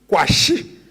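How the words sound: The name is pronounced in the Ga way. "A Ga or Ewe rendering of the name would be Kwashi"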